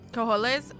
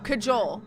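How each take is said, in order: First: The J is not said as an English J. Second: The J is said as an English J. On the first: The speaker calls it wrong. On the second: The speaker calls it right.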